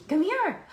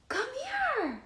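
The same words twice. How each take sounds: First: High, loud coaxing call. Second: Gasp, then a very high drawn-out coo; pleading with the dog, even higher. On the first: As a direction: lure the dog over sweetly. Coaxing the dog. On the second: Coaxing again after a gasp. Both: Real, not acted.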